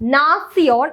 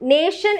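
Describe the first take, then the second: First: The ending is pronounced like 'tsee-ohn'. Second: The ending is pronounced like 'shun'. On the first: The speaker calls it right. "നാസിയോൺ എന്നാണ് പറയാ" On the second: The speaker calls it wrong. "നേഷൻ എന്ന് നമ്മൾ പറയില്ല"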